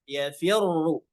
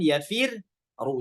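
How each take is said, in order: First: The doubled r is joined in one smooth sound. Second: The doubled r is broken into two separate parts. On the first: The speaker calls it right. "maka tetap ditebalkan dari awal" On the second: The speaker calls it wrong. "jangan yafir ru, jangan"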